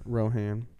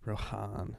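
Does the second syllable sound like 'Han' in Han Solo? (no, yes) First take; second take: no; yes. First: The second syllable does not sound like 'Han'. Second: The second syllable sounds like 'Han'. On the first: The speaker calls it right. "let's stick with the right way to say it" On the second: The speaker calls it wrong. "Rohan is just the way I pronounce it wrong. ... like Han Solo"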